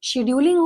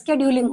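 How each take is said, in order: First: The word begins with a 'sh' sound. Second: The word begins with an 'sk' sound. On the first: This form is used in some places. "कुछ जगहों पर शेड्यूलिंग भी बोला जाता है" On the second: This is the speaker's own British English form. "मैं British English बोलती हूँ, स्केड्यूलिंग is fine with me"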